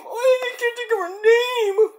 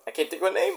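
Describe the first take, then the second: First: High, wailing mock cry. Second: Soft, whimpering complaint; whiny frustration. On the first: Stuck on a rapper's name late at night, high mock wail. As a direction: wail it like a fake sob, pitched way up. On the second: Stuck on a rapper's name late at night, soft whimper. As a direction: whine it quietly, half crying. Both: Real, not acted.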